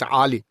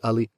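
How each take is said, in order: First: The name begins with a guttural throat sound. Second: The name begins with a plain vowel sound. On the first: "another letter called the an, which is a guttural a, so it's Ali" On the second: This is how the speaker's Pakistani parents say it. "never pronounced it that way"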